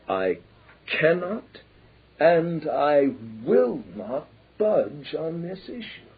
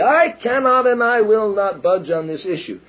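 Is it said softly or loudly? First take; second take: softly; loudly. First: It is said in a soft voice. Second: It is said in a loud voice.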